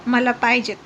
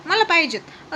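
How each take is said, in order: First: Said in the usual way. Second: Put-on मला पाहिजेत said higher, like a whining child; whiny repeat. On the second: A narrator's reading. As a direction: nag for it, pitched higher. Drunk wife demanding more. (मला पाहिजेत उंच, हट्टी सुरात)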